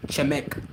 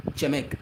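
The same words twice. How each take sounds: The two takes are said the same way.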